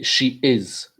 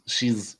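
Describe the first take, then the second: First: Both words are said fully and separately. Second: The two words are merged into one contracted syllable. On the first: The speaker calls it right. "We say she is" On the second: The speaker calls it wrong. "instead of saying you know uh, she's"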